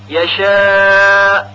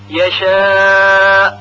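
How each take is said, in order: Both takes have the same delivery.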